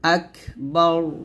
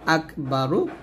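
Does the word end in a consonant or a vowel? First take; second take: consonant; vowel. First: The word ends on a bare 'r' consonant. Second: The word ends with a short 'u' vowel. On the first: The reader stops at this word. "যদি এখানে অক্ফ ধরেন তাহলে এর রটা সাকিন হয়ে যাবে" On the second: The reading continues without stopping. "র পেশ শুরু"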